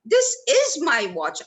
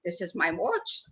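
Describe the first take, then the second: First: "is" hit firmly, the line a bit louder, falling at the end; stress on is. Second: "watch" stressed, lower and rising. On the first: Trainer demos stress to students, authority on "is". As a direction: insist with a hard "is". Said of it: "I'm showing authority". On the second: Trainer demos stress to students, ownership on "watch". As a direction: lean on "watch" to claim it. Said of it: "I'm showing possession". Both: Shown as a demonstration.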